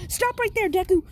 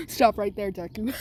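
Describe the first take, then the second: First: Teacher's shout. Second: Said in the usual way. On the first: Acted. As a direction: bark it like a teacher breaking up a fight. Teacher yells to stop fight.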